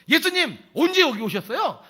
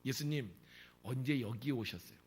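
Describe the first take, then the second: First: It is asked in an angry tone. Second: It is asked in a calm, plain tone.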